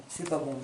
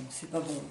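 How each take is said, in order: Both takes have the same delivery.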